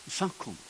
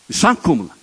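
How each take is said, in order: First: Much softer, drawn back; hushed echo. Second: Called out loud and firm; emphatic. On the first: Preacher echoing his point to the congregation, hushed. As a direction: let it sink in quietly. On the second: Preacher proclaiming to the congregation, loud. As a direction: ring it out to the hall. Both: Acted. Repeats phrase, loud then hushed.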